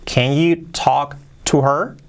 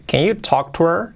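First: Slow question in separated chunks; careful word-by-word teaching question; slow model. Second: Linked, quicker question; brisk natural-speed model; more fluent. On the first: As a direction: space out the words, rise on "her". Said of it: "Más rápido". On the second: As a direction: run the words together, rising at the end. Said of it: "Con más fluidez". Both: Shown as a demonstration.

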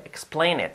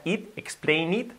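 First: "Explain it" ending like "et"; lax, E-like vowel in "Explain it"; it almost et. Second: "explain it" with a Spanish "eet"; wrong I in it. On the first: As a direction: relax the I of "Explain it" nearly to an E. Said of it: "el convertir las is en es". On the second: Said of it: "que no sea lo que decimos siempre". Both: Shown as a demonstration.

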